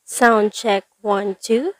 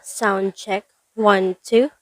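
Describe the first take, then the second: No difference in how they are said.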